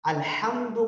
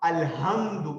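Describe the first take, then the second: First: The h sound is a throaty, raspy h. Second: The h sound is a light, plain h. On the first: The speaker calls it right. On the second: The speaker calls it wrong.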